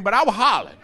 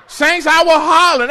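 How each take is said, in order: First: Said in the usual way. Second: Loud, laughing confession; laughing louder admission. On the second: Real, not acted. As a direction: own it out loud through a laugh. Repeats confession, second louder.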